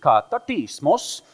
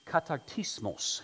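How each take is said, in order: First: Katartismos in a loud mock Swedish accent; louder Swedish accent on Katartismos, rising at the end; hammed-up Swedish accent on Katartismos. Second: Katartismos said with a Spanish accent. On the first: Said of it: "so I better say it with a Swedish accent". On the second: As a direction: read the Greek katartismos like a Spanish speaker. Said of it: "I just spoke Greek with a Spanish accent". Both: Shown as a demonstration.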